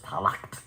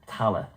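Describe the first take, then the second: First: The word ends with a guttural 'kht' sound. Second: The word ends on a vowel, no final consonant. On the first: The speaker calls it wrong. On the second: The speaker calls it right.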